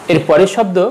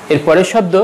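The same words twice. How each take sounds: The two takes are said the same way.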